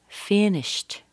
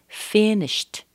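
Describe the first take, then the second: Both takes have the same delivery.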